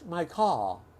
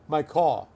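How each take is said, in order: First: It is said in a British accent. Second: It is said in a New York accent. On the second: "New York"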